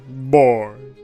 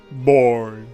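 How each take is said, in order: Both takes have the same delivery.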